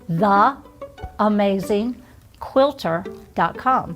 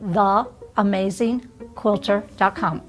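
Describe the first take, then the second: First: It is said more slowly and deliberately. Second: It is said at a normal, quicker pace.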